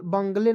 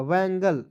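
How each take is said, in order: First: बंगले said as BUNG-lay, the mistaken reading; wrong pronunciation. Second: बैंगल said as BANG-gul; correct pronunciation. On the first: Teacher shows students the reading to avoid. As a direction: say बंगले like the Hindi word for bungalow. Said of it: "बंगले नहीं पढ़िएगा". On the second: Teacher gives students the right reading. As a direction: give बैंगल the open BANG-gul sound. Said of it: "बैंगल पढ़ेंगे". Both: Shown as a demonstration.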